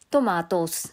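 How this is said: The word is said in an Australian accent. This is how people in Australia say it. "Tawag kasi dito guys, Australia is"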